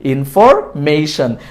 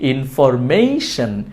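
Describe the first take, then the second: First: The 'ma' syllable has an 'ei' glide. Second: The same.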